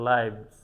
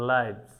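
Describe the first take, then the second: Both takes have the same delivery.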